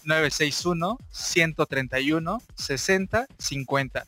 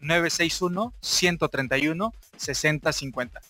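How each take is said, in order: First: The number is said more slowly. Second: The number is said at normal speed.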